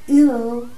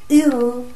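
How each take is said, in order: Both takes have the same delivery.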